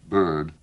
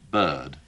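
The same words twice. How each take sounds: First: The vowel is said with an American r-colored sound. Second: The vowel is said without the American r-colored sound. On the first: The speaker calls it wrong. "the vowels that Americans have in a word like bird, if you'll pardon my saying it as bird" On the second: The speaker calls it right. "I, of course, think the word should properly be pronounced as bird"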